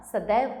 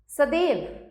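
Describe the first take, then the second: First: Said in the usual way. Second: सदैव as sadev; सदैव with a long e. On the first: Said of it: "सदैव होता है". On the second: Shown as a demonstration. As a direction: narrow the ai of सदैव to e. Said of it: "सदैव नहीं होता".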